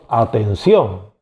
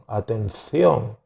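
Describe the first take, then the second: First: The c is pronounced like an s sound. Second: The c is pronounced like a th sound. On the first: This is how Latin Americans say it. "nosotros decimos atención" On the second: This is how Spaniards say it. "los españoles dicen atención"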